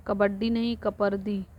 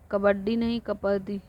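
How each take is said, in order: Both takes have the same delivery.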